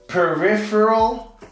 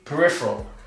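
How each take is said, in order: First: The vowel after the first p is kept. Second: The vowel after the first p is dropped. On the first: "the proper way to pronounce this" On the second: "I kind of skip the E"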